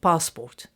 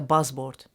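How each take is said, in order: First: The word begins with a p sound. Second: The word begins with a b sound. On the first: "as you say passport" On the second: "Somebody Iraqi will say"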